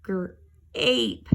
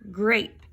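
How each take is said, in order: First: Gr-ape split apart; segmented gr-ape. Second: Said in the usual way. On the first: Shown as a demonstration. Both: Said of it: "changes that A to an A sound".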